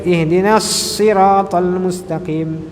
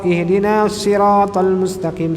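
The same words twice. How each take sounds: First: The s sound has a strong airy hiss. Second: The s sound is plain, without airy hiss. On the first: The speaker calls it right. "Sadnya dia ada punya bunyi angin" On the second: The speaker calls it wrong. "Jangan kita baca"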